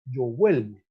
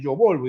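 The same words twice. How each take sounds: First: VUELVO with the O opened into a UE glide; correct irregular form. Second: VOLVO with a plain O in the first syllable; incorrect regular form. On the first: Teacher corrects the conjugation for students, VUELVO with UE glide. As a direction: say VUELVO, UE in the first syllable. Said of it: "es yo vuelvo". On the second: Teacher demonstrates the rejected conjugation, VOLVO with unbroken O. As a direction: say VOLVO, keeping the unchanged root VOL. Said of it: "si no es yo volvo". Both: Shown as a demonstration.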